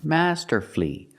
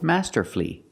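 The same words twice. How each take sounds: First: The word has three syllables, ending in flee. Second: The same.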